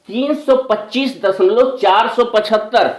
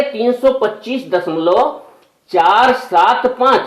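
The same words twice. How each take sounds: First: Decimal read as "चार सौ पचहत्तर", a whole number; wrong reading. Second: After "दशमलव", each digit "चार सात पाँच" said separately and slowly; slow down and say "चार सात पाँच" one digit at a time; correct digit-by-digit reading. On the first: Teacher to pupils, reading a decimal the wrong way first. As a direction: reads the decimal part "चार सौ पचहत्तर" as one number, by mistake. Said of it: "अरे वाह, गलत हो गया". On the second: Teacher corrects himself for pupils, reading digits singly and slowly. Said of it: "दशमलव के बाद के अंकों को अकेला अकेला पढ़ेंगे".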